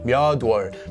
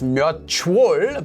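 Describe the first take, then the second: First: The final consonant carries over as a d sound. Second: The final consonant carries over as a ch sound. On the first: The speaker calls it right. "this actually becomes a 디귿" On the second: The speaker calls it wrong. "is not pronounced as 몇월"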